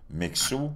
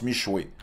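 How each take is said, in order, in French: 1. La consonne du milieu est un son 'ks'. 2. La consonne du milieu est un son 'sh'. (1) "et non pas Mixu" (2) "on prononce Michoué"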